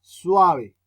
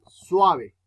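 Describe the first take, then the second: First: Emphatic classroom demo, suave with a loud, long A; stress on the A. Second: Suave said slowly, the A of suave leaned on; teacher's slow model word suave; slow demo word. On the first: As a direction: punch the A in suave, let the U slide. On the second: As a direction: spell out suave slowly, swa-ve, weight on the A. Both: Shown as a demonstration. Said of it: "la vocal que yo digo más duro no es la U, sino la A".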